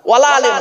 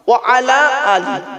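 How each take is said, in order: First: Words run together and the last ends in 'eh'. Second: Words are separate and the last ends in 'ee'. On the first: The speaker calls it wrong. "ওয়ালা আলে নয়। এ খুব মারাত্মক বড় ভুল" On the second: The speaker calls it right.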